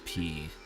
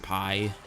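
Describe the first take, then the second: First: The vowel sounds like 'ee', as in 'pee'. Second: The vowel sounds like 'eye', as in 'pie'. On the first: The speaker calls it wrong. "I don't know why people pronounce uh, their tag as P" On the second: The speaker calls it right. "I'm pretty sure it's pi"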